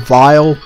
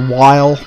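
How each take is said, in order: First: The name starts with v and rhymes with mile. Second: The name starts with w and rhymes with mile. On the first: "some people prefer vile" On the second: "some people prefer while"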